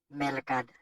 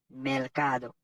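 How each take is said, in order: First: The word ends without a final vowel. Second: The word ends in a final vowel. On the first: The speaker calls it wrong. "toujours mal prononcé. Yo dit melcad" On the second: The speaker calls it right. "c'est pas melcad, c'est melcado"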